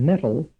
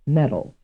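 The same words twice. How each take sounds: First: The middle consonant is a clear t sound. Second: The middle consonant is a soft d-like flap. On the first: It can only be metal, not medal. "if one wants to give these two words a reading pronunciation" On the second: It could be either medal or metal. "may both represent something that sounds the same"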